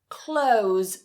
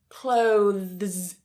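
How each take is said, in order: First: The th sound is dropped before the s. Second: The th sound is pronounced before the s. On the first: "cut the T H and just say clothes" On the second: "the difficult part here is that th combination"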